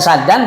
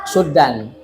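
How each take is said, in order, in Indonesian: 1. Vokal pertama adalah bunyi 'a' terbuka. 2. Vokal pertama adalah bunyi 'u' bulat. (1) "Bisa fathah" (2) "bisa dhammah"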